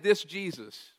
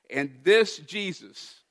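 First: "This" hit hard, "Jesus" falling after; stress on this. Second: "this" leaned on slowly, the name after it; slow weight on "this" before Jesus; stress on this. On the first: Pastor repeats his phrase to the church, stressing "This". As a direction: point back at the word "this". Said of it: "notice that I said". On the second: Pastor to his church, stressing "this" slowly. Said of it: "notice that I said, "This Jesus". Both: Shown as a demonstration.

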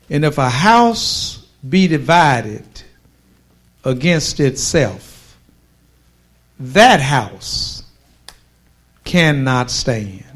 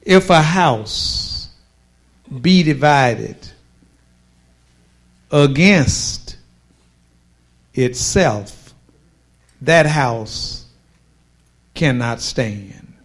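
First: Measured verse reading in longer phrases; solemn pulpit reading, clause by clause; scripture reading. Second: Slow, broken phrasing with long pauses after "against" and "itself"; drawn-out "If a house", dropping away on "cannot stand"; emphatic repetition. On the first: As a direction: read the verse out deliberately, pausing between clauses. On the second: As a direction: repeat it piece by piece, "against" standing alone. Verse repeated for emphasis. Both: Real, not acted.

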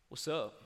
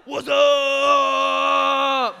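First: Much lower, softer greeting; deepened voice. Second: Loud, drawn-out goofy shout; weird playful inflection. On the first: Preacher showing how people greet each other, deepened voice. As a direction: drop the voice way down, low-key. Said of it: "why does our voice have to get deeper". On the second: Having fun greeting somebody you really know, weird shouted inflection. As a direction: stretch it into one long shouted greeting. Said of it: "the inflection gets weird and we wanna have fun". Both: Shown as a demonstration.

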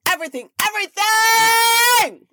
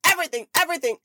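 First: "everything" yelled much higher and louder at the climax; full shout. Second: Chanted repetition of "Everything" before the peak; chanted, start the build on "Everything, everything". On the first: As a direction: blast "everything, everything" at the top of your lungs. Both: Real, not acted. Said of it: "is what we shout".

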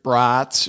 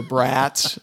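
First: "brats" as "brahts", like bratwurst; "brats" rhyming with "dots"; alternative pronunciation. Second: "brats" rhyming with "cats"; "brats" with the vowel of "hat"; alternative pronunciation. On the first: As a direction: say "brats" with an open ah vowel. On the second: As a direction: say "brats" with a short flat a, like naughty kids. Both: Shown as a demonstration. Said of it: "however you want to pronounce it".

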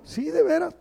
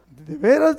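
First: High insistent yes. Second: Surprised question. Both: Retold or imitated.

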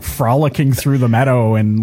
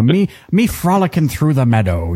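First: Said in the usual way. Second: Frolicking through the meadow in a lilting mock Irish brogue; put-on Irish accent. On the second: Host joking how he'll talk in Australia, put-on Irish accent. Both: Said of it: "really put it on".

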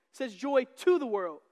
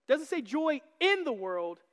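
First: "to" punched in "joy to the world"; "to" made the key word; stress on to. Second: "in" weighted in "joy in the world"; "in" set apart as the wrong word; stress on in. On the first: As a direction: hit the word "to". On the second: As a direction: lean on the word "in". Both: Shown as a demonstration.

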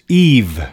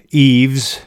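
First: Eve said as "eev" with no final s; the correct French way to say Eve; French pronunciation. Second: Eves said as "eevz" with a final z; the common English reading of Eves; English pronunciation. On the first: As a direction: give Eve the French reading, a silent ending. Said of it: "the correct French pronunciation is Eve". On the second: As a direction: say Eves the English way, ending in a buzzing z. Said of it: "It's often pronounced Eves". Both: Shown as a demonstration.

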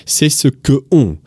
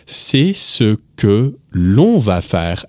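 First: "que on" with a bumpy vowel clash, no L; blocky wrong form. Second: "l'on" linked smoothly with a clear L, said slowly; with the L sound. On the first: Teacher showing the wrong form, "que on" without an L. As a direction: let "que" hit "on" in a hiatus. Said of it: "sounds very blocky and very rough". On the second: Teacher showing the right French form, slow and smooth "l'on". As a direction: glide through "l'on" slowly, L between the vowels. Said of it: "you hear the que on sounds very blocky". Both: Shown as a demonstration.

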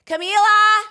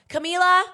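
First: Full high shout of the name; yelling. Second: High call across the house, higher pitch and louder. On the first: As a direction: yell her name to get an answer. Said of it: "Until I am quite literally yelling". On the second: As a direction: call the daughter from another room. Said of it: "This is how it happens at my house". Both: Retold or imitated.

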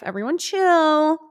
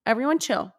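First: Drawn-out, higher teasing "chill" on Everyone chill; mock calming. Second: Said in the usual way. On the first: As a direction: stretch out "chill" like calming a crowd, tongue in cheek. Joking she won't really be an assassin.

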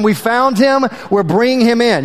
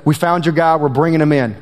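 First: Higher, laughing incredulous echo of the caller; exasperated mock quote. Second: Lightly lowered, terse ski patrol man; curt deep-voiced caller. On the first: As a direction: parrot his curt words in disbelief. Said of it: "you don't say anything other than". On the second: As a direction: clip it short like a gruff patroller. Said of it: "this guy with a deep voice".

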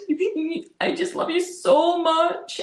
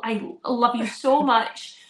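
First: Put-on higher, slow sweet little boy; imitating a pleading child. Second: Said in the usual way. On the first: Son pleading love to mum, higher slow child voice. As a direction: stretch it out like a kid begging.

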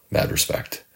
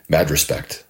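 First: Breathy whispered echo of "mad respect"; whispered repeat. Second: Said in the usual way. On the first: Real, not acted. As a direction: hush it like an afterthought. Repeats phrase, second time hushed.

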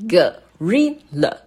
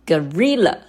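First: Gorilla split go, RI, lla with pauses; syllable by syllable. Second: Gorilla as one word, RI raised; stress on second syllable. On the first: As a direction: count out gorilla in three separate beats. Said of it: "它有几个音节呢". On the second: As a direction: lift the middle of gorilla, then fall. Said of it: "它的音调比较高的地方". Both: Shown as a demonstration.

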